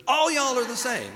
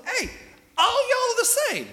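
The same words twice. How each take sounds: First: Chuckling through the punchline; laughing repeat. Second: High, loud, drawled country call; folksy Jesus call. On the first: Real, not acted. Preacher repeating his own joke to the congregation, laughing. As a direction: say it again while laughing at the joke. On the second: Retold or imitated. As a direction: belt it like a good-natured southern preacher. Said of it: "what Jesus is trying to say".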